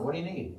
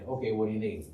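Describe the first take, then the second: First: It is asked in a casual, neutral tone. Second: It is asked in a grudging, reluctant tone.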